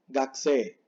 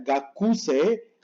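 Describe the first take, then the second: First: The u after k is nearly silent. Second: The u after k is fully voiced. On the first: The speaker calls it right. "sino Gakse" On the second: The speaker calls it wrong. "Esto no se pronuncia Gakuse"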